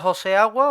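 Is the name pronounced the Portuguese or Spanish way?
Spanish. The name is said with Spanish pronunciation.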